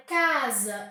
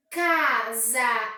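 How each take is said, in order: First: Said in the usual way. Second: CASA em duas sílabas esticadas, CA-SA; separado em sílabas. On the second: Shown as a demonstration. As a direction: pronuncie "Casa" bem separado, CA... SA, com força. (dividido em sílabas, CA-SA) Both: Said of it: "eu tenho duas sílabas".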